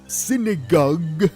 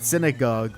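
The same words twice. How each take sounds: First: The word is pronounced in an odd, comic way. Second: The word is pronounced the ordinary way. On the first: "it's a funny way he says it" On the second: "he says the word synagogue"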